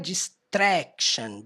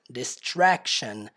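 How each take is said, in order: First: The TR is said like a Portuguese TR. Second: The TR is said further back, English-style. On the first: The speaker calls it wrong. "o jeito que ela pronuncia não é distraction" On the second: The speaker calls it right. "ela pronuncia mais para dentro"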